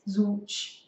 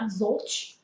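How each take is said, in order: First: The middle consonant sounds like a W. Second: The middle consonant sounds like an L. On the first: The speaker calls it right. "it pronounces like a W" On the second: The speaker calls it wrong. "it's not zolch"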